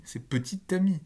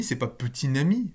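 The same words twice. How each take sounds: First: "petite amie" with a clear t linking into amie, higher; "petite amie", t carried onto the vowel; right liaison. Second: "petit ami" said with an n liaison, like "petin ami"; "petit ami" as "peti-n-ami", the wrong form. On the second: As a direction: say "petit ami" with a nasal n linking sound. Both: Shown as a demonstration.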